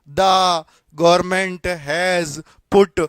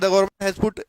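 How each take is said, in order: First: It is said slowly, with pauses between words. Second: It is said quickly, in one unbroken run. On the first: "रुक रुक के नहीं बोलेगा" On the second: "एकदम बोलेगा"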